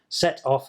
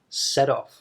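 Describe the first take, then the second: First: The t is a clear T sound. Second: The t is a short D sound. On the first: "you can say it with a T" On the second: "more commonly, you would actually say"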